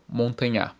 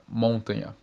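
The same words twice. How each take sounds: First: Montanhar wrongly stressed on its last syllable; shifted stress. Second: Montanha wrongly stressed on its first syllable, MON; shifted stress. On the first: Teacher showing swapped stress, last syllable of montanhar stressed. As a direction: land on the final NHAR of montanhar. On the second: Teacher showing swapped stress, first syllable of montanha stressed. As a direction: hit MON in montanha, leaving the rest weak. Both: Shown as a demonstration. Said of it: "Se trocarmos a sílaba tônica".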